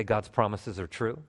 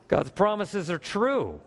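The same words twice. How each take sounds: First: Said in the usual way. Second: High, slow, each word stressed, peaking on "true"; emphatic declaration. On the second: Shown as a demonstration. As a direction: proclaim "God's promises are true" slowly, landing hard on "true". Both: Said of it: "Look at the person next to you and say".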